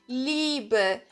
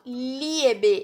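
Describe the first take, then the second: First: The first vowel is one long 'i' sound. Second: The 'i' and 'e' are said as separate vowels. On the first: The speaker calls it right. "eu prolongo o som do I" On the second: The speaker calls it wrong. "Eu não falo o I e o E"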